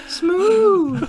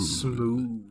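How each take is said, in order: First: It is said in a high Herbert-like voice. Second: It is said in a deep voice.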